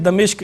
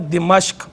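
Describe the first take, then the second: First: The first vowel is a, the second i. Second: The first vowel is i, the second a. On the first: The speaker calls it wrong. "गलत तौर पे यूँ कह देते हैं दमिश्क, यानी दाल पे ज़बर पढ़ते हैं" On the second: The speaker calls it right. "मीम पे ज़बर के साथ बनेगा दिमश्क"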